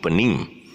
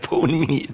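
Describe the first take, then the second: First: The first vowel is a weak neutral sound. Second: The first vowel is a full vowel like phone. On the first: The speaker calls it right. "the O is taken into a weaker sound" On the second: The speaker calls it wrong. "why is it mispronounced as phone me?"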